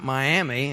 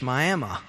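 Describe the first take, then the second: First: It uses the usual, widely known pronunciation. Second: It uses a different, local Oklahoma pronunciation. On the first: The well-known big city is meant. "in Oklahoma, it's not Miami" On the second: The lesser-known local town is meant. "We have to pronounce it differently"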